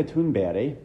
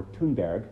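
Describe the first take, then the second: First: Thunberg said the Swedish way; Swedish pronunciation. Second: Thunberg said the English way; plain English sounds on Thunberg; English pronunciation. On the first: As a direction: say Thunberg as Swedes would, not anglicized. Gives native name before English version. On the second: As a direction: say Thunberg anglicized, not as in Swedish. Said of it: "as we say in English". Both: Shown as a demonstration.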